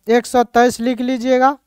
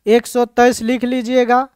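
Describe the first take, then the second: No difference in how they are said.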